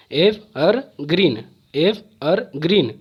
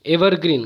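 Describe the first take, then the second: First: "evergreen" slowly in three separate beats, एव-अर-ग्रीन; syllable by syllable. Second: Said in the usual way. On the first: Shown as a demonstration. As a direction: break "evergreen" into three with clear pauses. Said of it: "इसमें तीन syllable आ रहा". ("Evergreen" को तीन टुकड़ों में रुक-रुक कर) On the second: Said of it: "कैसे आप पढ़ते हैं".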